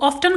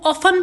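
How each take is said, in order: First: The t sound in the middle is pronounced. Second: The t sound in the middle is silent. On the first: This is the British way of saying it. "British pronunciation में इसको ऑफ्टन कहा जाता है" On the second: Many people commonly say it this way. "इसे अक्सर लोग ऑफन भी pronounce करते हैं"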